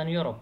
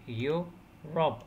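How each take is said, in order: First: Said in the usual way. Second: "يوروب" broken into two separate syllables; split into syllables. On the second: Shown as a demonstration. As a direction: pause between the two halves of "يوروب". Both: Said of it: "two syllables".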